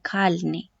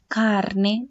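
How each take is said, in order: First: The sound before the n is an l. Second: The sound before the n is an r. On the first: The speaker calls it wrong. "dicen calne" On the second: The speaker calls it right. "en vez de decir carne"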